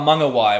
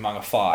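First: The last syllable begins with a w sound. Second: The last syllable begins with an f sound. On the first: The speaker calls it wrong. "people being like, oh" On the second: The speaker calls it right. "when it maybe isn't meant to be"

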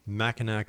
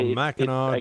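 First: The word ends with a k sound. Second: The word ends without a k sound. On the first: The speaker calls it wrong. "I hate to correct you. It's Mackinac, drop the C" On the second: The speaker calls it right. "drop the C"

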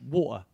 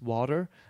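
First: It is said in a London accent. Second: It is said the way locals say it. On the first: "I used to speak with a London accent" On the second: "And actually here is water"

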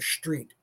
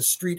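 First: The word begins with an 'sht' sound. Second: The word begins with a plain 'st' sound. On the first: "Words that begin with S-T is S-H-T lately" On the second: "you don't walk down the street anymore"

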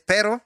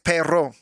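First: The R sound is plain, not rolled. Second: The R sound is strongly rolled. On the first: The speaker calls it wrong. "I think I'm saying it wrong" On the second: The speaker calls it right. "I think you got to roll your R's on that"

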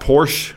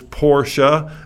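First: The final E is silent, one syllable. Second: The final E is pronounced, two syllables. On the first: The speaker calls it wrong. "It's not Porsche" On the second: The speaker calls it right. "but it's Porsche... the E is not silent. You pronounce the E"

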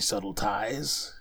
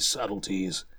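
First: The ending sounds like the word 'ties'. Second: The ending sounds like the syllable 'tees'. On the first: The speaker calls it wrong. "looks like it could be subtle ties" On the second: The speaker calls it right. "the word is literally subtleties"

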